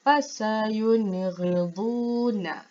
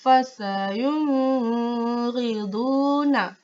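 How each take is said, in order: First: Fasayunghiduna, nun clear, no hum; slow, clean syllables; the correct way to read it. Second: Fasayunghiduna with the nun hummed through the nose; very slow, hummed nun; demonstrating the mistake; wrong nasal reading. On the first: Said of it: "sebut dengan jelas dan terang". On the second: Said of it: "Contoh yang salah". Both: Shown as a demonstration.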